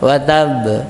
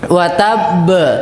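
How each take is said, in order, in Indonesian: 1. Pantulan huruf b di akhir kata tetap diredam di dalam. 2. Pantulan huruf b di akhir kata dilepaskan dan terdengar ke luar. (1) "pantulannya juga tidak dipendamkan di dalam"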